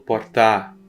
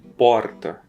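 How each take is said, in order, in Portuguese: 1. A tônica está na última sílaba. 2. A tônica está na primeira sílaba. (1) "por causa da, da proximidade com a tonal do tá" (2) "você está acostumado com porta"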